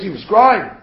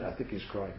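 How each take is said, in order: First: CRYING stated firmly and louder; emphatic certainty. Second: Low, very soft murmur; tentative guess. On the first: Shown as a demonstration. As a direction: hit "crying" loud, as a definite fact. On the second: Retold or imitated. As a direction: drop to a doubtful undertone. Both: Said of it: "This was not a question".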